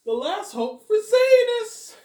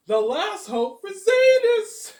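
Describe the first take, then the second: First: Much higher, louder, slow drawn-out line; hammed-up Robert, slow and high; Robert impression. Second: Much higher, louder, slow sung line; mock-epic Robert, sung slowly; sung Robert impression. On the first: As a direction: stretch it like a dramatic trailer voice. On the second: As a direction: chant it like a dramatic trailer. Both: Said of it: "Not a bad impression of Robert".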